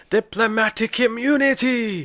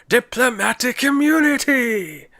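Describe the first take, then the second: First: High, slow, shouted villain line; Lethal Weapon villain. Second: High, slow, shouted South African villain; South African accent. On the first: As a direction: bellow it like a movie villain. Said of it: "Do you not remember?". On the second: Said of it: "the guy from Lethal Weapon two going". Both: Retold or imitated.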